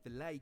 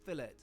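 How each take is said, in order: First: It is pronounced a non-British way. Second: It is pronounced the British way. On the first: "before I get any filet corrections" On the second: "we pronounce it that way in the U K"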